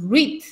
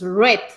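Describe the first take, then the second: First: The vowel is a long 'ee' sound. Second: The vowel is a short 'e' sound. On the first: It is the present tense. "En presente tú dices read" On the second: It is the past tense. "en pasado dices red, como el color rojo"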